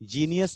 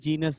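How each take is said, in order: First: The ending is said as jee-nee-us. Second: The ending is said as jee-nus. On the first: The speaker calls it wrong. "जीनियस नहीं" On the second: The speaker calls it right. "जीनस बोलते हैं बेटा उसको"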